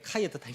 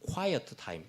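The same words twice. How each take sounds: First: The 'qu' is said without rounded lips. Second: The 'qu' is said with strongly rounded lips. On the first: The speaker calls it wrong. "quiet time 아니고" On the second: The speaker calls it right. "Q 발음할 때는 입술을 쭉 내야 됩니다. ... 이렇게 해야지"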